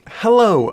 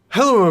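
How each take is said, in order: First: The word is said with careful, clear articulation. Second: The word is said loosely, without careful articulation. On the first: The speaker calls it right. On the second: The speaker calls it wrong.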